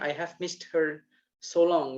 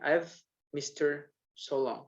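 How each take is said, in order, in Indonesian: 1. Setiap kata diucapkan penuh dan terpisah. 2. Kata-katanya menyatu, 'missed her' terdengar seperti 'mister'. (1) "kalau orang Indonesia pasti ngomongnya" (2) "kalau bule maunya gampang kan mereka. Ya akhirnya dibacanya"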